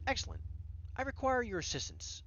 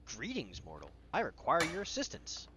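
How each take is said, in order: First: Higher, lightly British regal cat; British accent. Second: Lightly voiced formal gnome; a hint of a storybook gnome. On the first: Acted. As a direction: make a stately request in a British accent. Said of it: "in a British accent". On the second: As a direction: play a gnome making a grand request. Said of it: "out pops this gnome".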